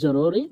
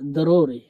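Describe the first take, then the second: First: The word begins with a j sound. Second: The word begins with a d sound. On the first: This is how Bengali speakers say it. "আমরা বলে থাকি জরুরি" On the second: This is how Arabic speakers say it. "তারা বলে দরুরি। তারা জকে দয়ের মতো উচ্চারণ করে"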